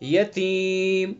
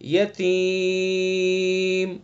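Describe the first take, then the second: First: The long vowel is held for two counts. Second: The long vowel is held for five counts. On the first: "दो अलिफ" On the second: "पांच अलिफ हो गए"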